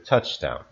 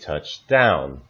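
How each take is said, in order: First: The stress falls on touch. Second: The stress falls on down. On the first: It is used as a noun. "the noun touchdown" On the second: It is used as a phrasal verb. "the phrasal verb touch down"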